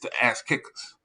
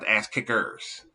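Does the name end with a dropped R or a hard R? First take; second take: dropped R; hard R. First: The final syllable ends without a pronounced R. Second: The final syllable ends with a hard R. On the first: The speaker calls it right. "it's the ass kickers" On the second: The speaker calls it wrong. "You you you you put the E R on it like a hard R"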